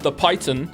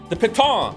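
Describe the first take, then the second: First: It is said like the English word python. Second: It is said the French way, like pee-tohn. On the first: The speaker calls it wrong. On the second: The speaker calls it right.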